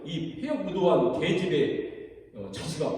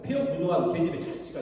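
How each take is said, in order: First: Drawn-out mock curse from an angry king; a hint of a furious king's slur; slow cursing insult. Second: Said in the usual way. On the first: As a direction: spit the insult out slowly. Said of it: "엄마를 뭐라고 얘기하냐면". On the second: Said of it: "이 얘기 무슨 얘기냐면".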